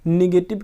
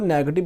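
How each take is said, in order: First: The first vowel sounds like 'ee'. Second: The first vowel sounds like 'eh'. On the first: The speaker calls it wrong. "निगेटिव की जगह पर" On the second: The speaker calls it right. "नेगेटिव बोलना है"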